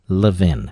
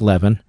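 First: The name is said the local Philadelphia way. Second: The name is read the way it is spelled. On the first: "in Philadelphia, we pronounce it Levin" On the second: "Levin is spelled like Levin"

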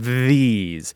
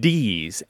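First: It begins with a voiced th sound. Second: It begins with a d sound. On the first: "you can feel your tongue vibrating on your teeth. We'll just call it a voice TH" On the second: "the D sound is on your palate, just a little bit behind your teeth"

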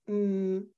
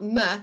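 First: The consonant is said alone without a vowel. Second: The consonant is followed by a short vowel. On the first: The speaker calls it right. "it's m" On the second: The speaker calls it wrong. "It's not m"

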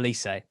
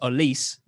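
First: The final E is pronounced. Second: The final E is silent. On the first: The speaker calls it wrong. "not Olise" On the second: The speaker calls it right. "if there's not an accent on that last E, it's Olise"

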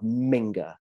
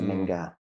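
First: The G is hit hard. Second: The G is said softly. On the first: It is quite offensive. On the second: It is a plain insult.

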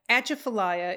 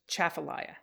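First: The word starts with an extra vowel sound. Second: The word starts directly with a ch sound. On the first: The speaker calls it wrong. "despite its spelling" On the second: The speaker calls it right. "is actually just chafalaya"

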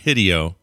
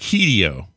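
First: The first vowel is a short i sound. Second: The first vowel is a long ee sound. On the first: The speaker calls it wrong. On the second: The speaker calls it right.

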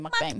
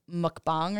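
First: It is said with an American Midwestern pronunciation. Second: It is said closer to the Korean pronunciation. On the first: This is how a local speaker would say it. "I'm from the Midwest, so I'm going to say mukbang" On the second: This is the proper original pronunciation. "isn't it pronounced like mukbang or something"

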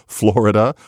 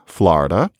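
First: The first vowel sounds like 'or'. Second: The first vowel sounds like 'ah'. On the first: This is how most of America says it. "it's supposed to be horrible" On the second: This is the Upper East Coast way. "You say, as I do"

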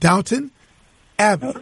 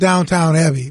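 First: The second syllable sounds like 'ton'. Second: The second syllable sounds like 'town'. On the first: The speaker calls it right. "but Downton Abbey" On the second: The speaker calls it wrong. "Not Downtown Abbey"

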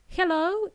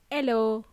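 First: The word begins with an audible H. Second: The word begins without any H sound. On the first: The speaker calls it right. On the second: The speaker calls it wrong.

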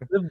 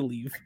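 First: The name is said with a short 'i' vowel. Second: The name is said with a long 'ee' vowel.

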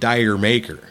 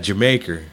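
First: The first part sounds like 'dire'. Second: The first part sounds like 'jer'. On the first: The speaker calls it wrong. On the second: The speaker calls it right.

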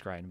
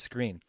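First: The vowel is pronounced like 'eye'. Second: The vowel is pronounced like 'ee'. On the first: The speaker calls it wrong. "It reads as Scrine" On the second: The speaker calls it right. "but it's pronounced as Screen"

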